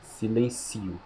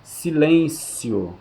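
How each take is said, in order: First: Silencio much softer, stressed on ci; unaccented silencio, softer. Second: Silêncio stretched out slowly, stressed on lên; accented silêncio, slow. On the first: Teacher contrasting the verb form: Silencio, softer, on ci. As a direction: say Silencio quietly, putting the stress on ci. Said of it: "Silêncio, silencio". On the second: Teacher drawing out the noun for the class: Silêncio on lên. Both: Shown as a demonstration.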